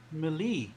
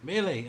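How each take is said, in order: First: Melee said as "meh-LEE"; mispronounced Melee. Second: Melee said as "MAY-lay"; corrected pronunciation. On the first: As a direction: end Melee in a long "lee". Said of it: "Melee, I'm sorry". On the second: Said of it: "I'm sorry". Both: Real, not acted.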